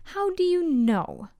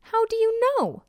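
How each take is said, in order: First: Higher-pitched pointed question, falling at the end; teacher's challenge. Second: Much higher, swooping down at the end; emphatic challenge. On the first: Teacher questions the accusing crowd, pointed challenge. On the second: Teacher repeats it to the staring crowd, emphatic challenge. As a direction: press the question hard from a high pitch. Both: A narrator's reading.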